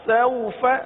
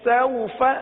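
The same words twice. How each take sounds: Both takes have the same delivery.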